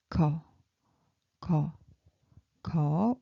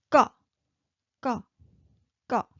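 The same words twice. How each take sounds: First: "Ko" said low with a soft k; low-pitched, soft. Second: "ka" short and high with a tense k; high-pitched double consonant. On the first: Teacher showing how we pronounce it, low soft "ko". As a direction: dip low on each "ko" and let it lift. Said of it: "ko sound low-pitched and soft". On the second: Teacher showing the double consonant, tense high "ka". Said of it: "just a high-pitched". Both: Shown as a demonstration.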